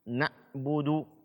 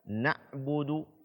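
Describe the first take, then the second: No difference in how they are said.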